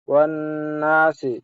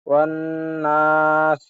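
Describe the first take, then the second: First: The last word ends with a short i vowel. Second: The last word ends on a consonant, no vowel. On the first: The reading continues without stopping. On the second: The reader stops at the end of the verse.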